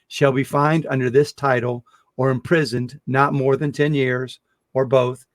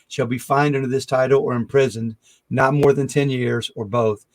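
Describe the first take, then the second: First: It is read more slowly. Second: It is read at normal speed.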